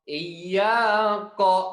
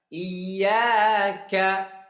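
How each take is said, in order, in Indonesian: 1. Konsonan akhir itu 'q' tenggorokan yang dalam. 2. Konsonan akhir itu 'k' ringan di depan. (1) "Dibaca seperti qaf" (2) "Tapi itu huruf kaf"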